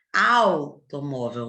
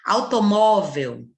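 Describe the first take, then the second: First: Automóvel very slow and lower; slow model word. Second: Automóvel slow and louder, the U almost gone; U barely heard. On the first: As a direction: drag out automóvel. (automóvel lento e grave) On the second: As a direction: swallow the U of Automóvel. (Automóvel lento, U quase sumido) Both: Shown as a demonstration. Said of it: "O U quase nem aparece".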